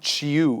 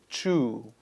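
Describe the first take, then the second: First: The vowel sound is short. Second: The vowel sound is a long oo. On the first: The speaker calls it wrong. "word is not chew" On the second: The speaker calls it right. "It's a long oo sound"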